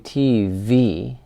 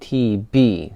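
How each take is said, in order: First: The second letter starts with a V sound. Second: The second letter starts with a B sound. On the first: The speaker calls it wrong. "we don't say T V" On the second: The speaker calls it right. "we just say T B"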